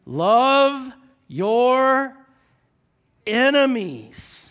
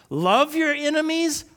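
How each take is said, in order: First: "love your enemies" drawn out slow and loud; slow emphatic scripture; read really slow. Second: Said in the usual way. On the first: Shown as a demonstration. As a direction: stretch "love" long, pause before "enemies". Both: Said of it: "I'm gonna read this really slow".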